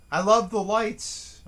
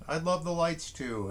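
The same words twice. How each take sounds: First: Higher and louder, stretching out "love" on a slow rise; emphatic love. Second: Said in the usual way. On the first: Real, not acted. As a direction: gush over the lights, leaning hard on "love". Gushing about Christmas lights.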